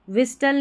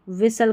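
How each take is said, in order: First: Silent T in विसल; only an S mid-word in विसल; correct pronunciation. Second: Silent T in व्हिसल; only an S mid-word in व्हिसल; correct pronunciation. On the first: Teacher showing the correction, विसल without T. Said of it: "विस्टल नहीं". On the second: Teacher showing the correction, व्हिसल without T. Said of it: "व्हिसल करके पढ़ना है". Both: Shown as a demonstration.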